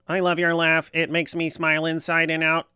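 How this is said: It is said in a robot voice.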